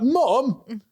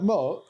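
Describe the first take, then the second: First: It is said in an upset, exasperated tone. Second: It is said in a light, casual tone. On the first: The speaker is protesting at being told off. "if they've like really upset you" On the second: It slipped out naturally without thinking. "you're either going to say it like that casually"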